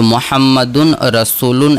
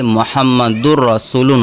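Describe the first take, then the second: First: The n sound is clearly kept before rasulun. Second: The n merges into a doubled r sound. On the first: The speaker calls it wrong. "तजवीद का अगर हम लेते हैं तो मोहम्मदुन रसूलुन ऐसा नहीं होता है" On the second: The speaker calls it right. "बल्कि मोहम्मदुर रसूलुन होता है, यानी रा के ऊपर हम तशदीद डाल करके करते हैं"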